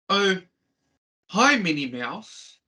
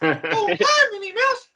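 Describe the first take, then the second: First: It is said in a normal voice. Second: It is said in a Mickey Mouse voice.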